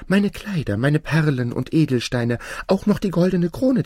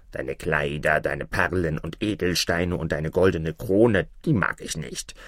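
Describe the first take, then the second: First: High-pitched princess, offering everything; fairy-tale princess, eagerly bidding high. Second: Low frog voice, turning down the offer; talking frog, pitched low and unimpressed; dismissive frog. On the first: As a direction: list your treasures high and pleading. Princess eagerly offers her treasures. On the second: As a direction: repeat the treasures low, then refuse. Frog refuses her treasures. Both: Acted.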